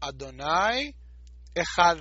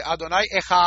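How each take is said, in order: First: Adonai Ejad, the last d held between the teeth; dalet stretched. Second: Adonai Ejad with the vowel held long; vowel stretched. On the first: Shown as a demonstration. Teacher shows how to stretch the dalet in Ejad. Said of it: "si ustedes quieren hacerlo bien, digan". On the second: Retold or imitated. Teacher imitates people who stretch the vowel in Ejad. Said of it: "mucha gente que dice".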